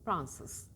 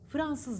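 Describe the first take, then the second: First: F and R are joined with no vowel. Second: A vowel is inserted between F and R. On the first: The speaker calls it right. "F ile R arasında ı yok" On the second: The speaker calls it wrong. "Fransız demeyin"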